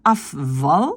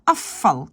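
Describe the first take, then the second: First: Afval with a voiced V, the form to avoid; wrong form. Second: Afval with the V turned to F, like two Fs; right form. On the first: Teacher shows the wrong afval with voiced V. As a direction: say afval with a real V sound. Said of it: "Je prononce pas afval". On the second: Teacher shows the correct afval, V as F. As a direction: say afval as afal, V as F. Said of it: "je prononce afval". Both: Shown as a demonstration.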